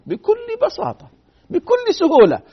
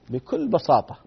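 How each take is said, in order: First: بكل بساطة lifted high and slowed; much higher, drawn out. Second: Said in the usual way. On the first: Shown as a demonstration. Preacher stressing how simple it was, voice rising high.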